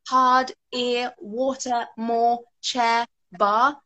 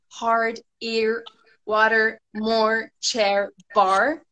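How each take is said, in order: First: A British accent with the R sounds barely heard. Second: An American accent with strong R sounds. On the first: "in British English, it's hardly noticeable, it's not even there. Yeah, we just have" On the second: "and you guys have"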